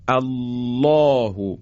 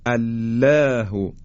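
First: الله with thick dark lam, long backed "aw"; very slow recited الله, full rounded ل; heavy taghliz. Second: الله with thin lam, fronted "læ"; slow demo of mistaken light الله; wrongly light lam. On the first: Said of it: "حالا این درشتی رو دقت کنید". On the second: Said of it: "ترقیق بکنیم به جای تغلیظ". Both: Shown as a demonstration.

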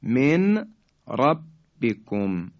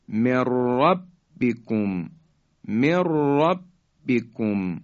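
First: Slow "من ربکم" as min, pause, rabbikum; nun kept separate. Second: Slow "من ربکم" joined as mir-rabbikum; "من ربکم" with a long rolled ra; nun merged into ra. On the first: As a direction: sound the ن of "من" clearly. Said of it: "نون ساکن". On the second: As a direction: drop the ن, roll a doubled ر in "ربکم". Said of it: "را ادغام شد". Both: Shown as a demonstration.

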